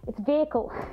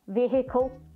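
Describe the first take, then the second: First: The H sound in the middle is silent. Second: The H sound in the middle is pronounced. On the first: The speaker calls it right. "the H is silent" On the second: The speaker calls it wrong. "they go, and he stepped out of the vehicle"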